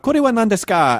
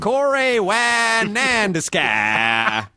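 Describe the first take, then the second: First: It is said without a Texan accent. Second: It is said with a Texan accent.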